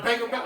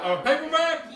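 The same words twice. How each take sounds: First: Said in the usual way. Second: High, loud disbelief on paperback; incredulous repeat. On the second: Real, not acted. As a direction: blurt paperback out in surprise.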